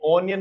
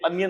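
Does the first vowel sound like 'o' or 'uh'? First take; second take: o; uh. First: The first vowel is a rounded 'o' sound. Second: The first vowel is an open 'uh' sound. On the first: The speaker calls it wrong. "ये ओनियन नहीं होता है" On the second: The speaker calls it right. "ये अनियन होता है"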